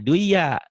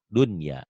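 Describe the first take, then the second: First: The n before y is merged away. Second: The n before y is clearly pronounced. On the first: The speaker calls it wrong. "jangan dibaca duya" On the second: The speaker calls it right. "Inilah yang dikatakan idhar mutlak"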